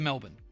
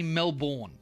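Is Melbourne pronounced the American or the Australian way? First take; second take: Australian; American. First: It is pronounced the way Australians say it. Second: It is pronounced the way Americans say it. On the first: This is how locals say it. The speaker calls it right. "instead of Melbourne" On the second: This pronunciation annoys Australians. The speaker calls it wrong. "if you want to trigger an Aussie, say Melbourne"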